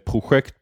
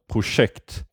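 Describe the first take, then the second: First: The middle consonant is not a sj-sound. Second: The middle consonant is a sj-sound. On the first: The speaker calls it wrong. "other people in Sweden wouldn't say project" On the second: The speaker calls it right. "the same sound as in fascist"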